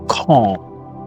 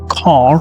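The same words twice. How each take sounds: First: The final R sound is dropped. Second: The final R sound is clearly pronounced. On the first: "they say car" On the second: "which you pronounce in American"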